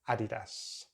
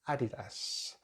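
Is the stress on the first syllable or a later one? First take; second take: first; first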